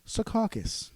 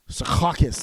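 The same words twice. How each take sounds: First: It is said in a mild, plain announcer voice. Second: It is said with a harsh, throaty sound. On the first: The speaker calls it wrong. "that's way too tame" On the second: The speaker calls it right. "you should pronounce it like that"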